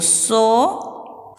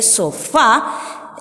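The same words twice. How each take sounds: First: Said in the usual way. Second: "sofá" slow, last syllable "fá" hit hard; stress on FÁ. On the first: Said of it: "Coloco el acento". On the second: Shown as a demonstration. Teacher showing children where the accent falls, stressed clearly. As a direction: lean on the "fá" in "sofá", drawn out. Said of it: "la profe pone un acento más fuerte".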